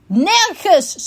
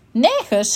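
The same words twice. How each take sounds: First: High, emphatic NERGENS; loud repeat. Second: Said in the usual way. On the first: A narrator's reading. Unicorn repeating for the raccoon, raised emphatic NERGENS. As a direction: say NERGENS higher and harder, for someone who misheard. Repeated louder after "Wat?.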